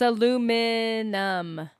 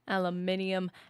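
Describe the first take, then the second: First: It is said with four syllables. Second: It is said with five syllables. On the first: The speaker calls it right. "There's no additional I" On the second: The speaker calls it wrong. "How does that even happen?"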